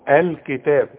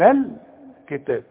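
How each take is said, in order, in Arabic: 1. تُنطق همزة الوصل في بداية الكلام. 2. تُحذف همزة الوصل وتتصل بالكلمة قبلها. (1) "ابدأ بها الكلمة واقول الكتاب اذا بدأت" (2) "لا تنطق اذا كانت بين كلمتين"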